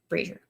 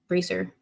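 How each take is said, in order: First: The middle consonant is a zh sound. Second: The middle consonant is a plain z sound. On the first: "With a Z H sound" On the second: "with the Z sound"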